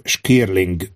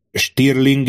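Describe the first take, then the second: First: "Skirling" with k in place of t; mistaken pronunciation. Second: "Stirling" with a clear t after the sh; corrected pronunciation. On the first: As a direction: say "Skirling" slowly, shk at the start. Quotes the king's wrong name. ("Skirling" tagoltan, k hanggal az s után) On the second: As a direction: say "Stirling" slowly, sht at the start. ("Stirling" tagoltan, t hanggal az s után) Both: Acted.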